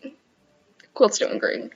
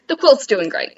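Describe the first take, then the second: First: Slow whispered repeat of The quilt's doing great; whispered aside. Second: Said in the usual way. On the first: Shown as a demonstration. Second-guessing her quilt claim, slow whispered. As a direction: breathe it out doubtfully, slow. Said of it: "No, it's not".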